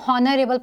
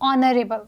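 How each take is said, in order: First: The word starts with an h sound. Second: The word starts with a vowel, no h. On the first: The speaker calls it wrong. "हमने इसको हॉनरेबल pronounce नहीं किया है" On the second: The speaker calls it right. "इस word को हमने कैसे pronounce किया है"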